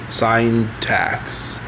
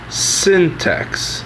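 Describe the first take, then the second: First: The first syllable sounds like 'sign'. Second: The first syllable sounds like 'sin'.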